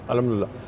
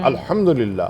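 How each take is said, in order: First: It is said quickly with sounds slurred together. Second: It is said slowly with every sound clear. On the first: The speaker calls it wrong. "अल्फ़ाज़ को इतनी तेज़ी से अदा किया" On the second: The speaker calls it right. "Pronunciation सही"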